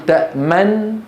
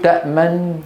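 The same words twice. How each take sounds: First: تأمن with lips rounded right after the nun begins; correct ishmam timing. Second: تأمن with lip rounding too late; wrong ishmam timing. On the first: Teacher shows correct ishmam in تأمن to students. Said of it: "بل نقول". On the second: Teacher shows incorrect ishmam in تأمن to students. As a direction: round lips on تأمن after the nun starts. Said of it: "لا نقول". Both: Shown as a demonstration.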